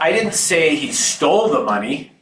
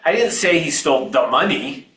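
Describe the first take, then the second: First: The word 'stole' carries the stress. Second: The word 'money' carries the stress. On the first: He may have taken it some other way. "He might have borrowed it" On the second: He took something other than the money. "He stole something, but it wasn't the money"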